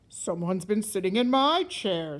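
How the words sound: It is said in a great big voice.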